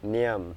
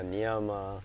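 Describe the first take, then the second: First: The word ends without a final vowel. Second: The word ends with a final a vowel. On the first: The speaker calls it right. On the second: The speaker calls it wrong. "not yama, niyama"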